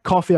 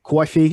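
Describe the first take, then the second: First: Said in the usual way. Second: Bronx-style "coffee" with a "kwoy-fee" vowel; thick New York "coffee", first vowel gliding like "coy"; New York accent. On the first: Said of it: "I could pronounce that coffee". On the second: Shown as a demonstration. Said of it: "New York or the Bronx".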